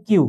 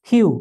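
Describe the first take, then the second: First: Said in the usual way. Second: কিউ said as English Q with kyoo; correct kyoo. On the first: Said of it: "not কিউ". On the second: Shown as a demonstration. Teacher giving the right sound of the letter Q. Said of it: "এটা হচ্ছে কিউ".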